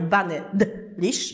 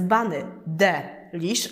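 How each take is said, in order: First: The name is pronounced in an English style. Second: The name is pronounced in a French style. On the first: This would echo another performer's name. The speaker calls it wrong. "a nie bunny delish" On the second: This is the performer's own stage name. The speaker calls it right. "żeby było z francuska"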